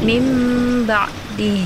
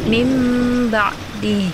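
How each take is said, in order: First: The nun is changed into an m sound. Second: The nun is changed into an m sound.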